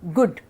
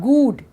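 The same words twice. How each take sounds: First: The vowel is short and clipped. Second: The vowel is long, like in food. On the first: The speaker calls it right. "short sound" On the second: The speaker calls it wrong. "it's not good"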